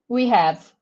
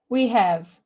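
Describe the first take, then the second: Both takes have the same delivery.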